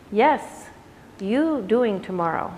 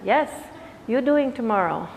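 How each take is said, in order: First: Put-on light Indian accent, slow and gentle; Pattabhi Jois accent. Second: Said in the usual way. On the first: Quoting Pattabhi Jois to students in a light Indian accent. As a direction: lean lightly into an Indian accent as the old teacher. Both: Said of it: "I did it with my accent".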